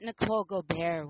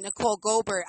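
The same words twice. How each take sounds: First: "Gobert" as go-BEAR in "Nicole Gobert"; French-style Gobert. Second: "Goldberg" said GO-burt, r-colored vowel; English-style surname. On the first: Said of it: "that, that sexy". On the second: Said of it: "was such a sexier name than". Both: Shown as a demonstration.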